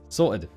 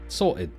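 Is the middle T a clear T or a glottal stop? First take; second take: glottal stop; clear T. First: The middle T is a glottal stop. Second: The middle T is a clear T sound. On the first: The speaker calls it right. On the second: The speaker calls it wrong.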